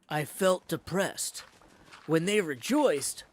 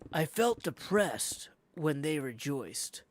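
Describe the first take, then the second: First: It has a pause after depressed. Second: It runs on with no pause after depressed. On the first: The sadness comes from their unhappiness. The speaker calls it right. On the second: The sadness comes from their joy. The speaker calls it wrong.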